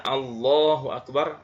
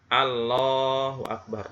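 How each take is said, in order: First: "Allahu Akbar" with a thick L and a dark O; full heavy lam. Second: "Allahu Akbar" said slowly with an L that is only partly heavy; half-heavy lam. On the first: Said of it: "Seharusnya dibaca". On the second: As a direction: show the weak tafkhim in "Allahu". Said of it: "tapi dia baca". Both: Shown as a demonstration.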